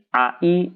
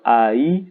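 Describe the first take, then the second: First: The second vowel starts with a full glottal stop. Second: The second vowel starts with a softened glide. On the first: "ai itu tahqiq" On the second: "ai lah itu namanya tashil"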